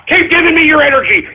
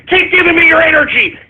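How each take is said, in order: Both takes have the same delivery.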